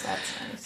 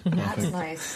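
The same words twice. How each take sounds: First: Breathy whispered aside. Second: Said in the usual way. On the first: Real, not acted. Said twice, second whispered.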